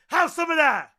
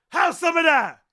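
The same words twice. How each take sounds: The two takes are said the same way.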